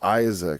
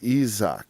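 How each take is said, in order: First: The name is said the usual English way. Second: The name is said the original, non-English way. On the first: This is how English speakers say it. The speaker calls it wrong. "we say ... Isaac is completely wrong" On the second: This is how the name is really said. The speaker calls it right. "It's Isaac"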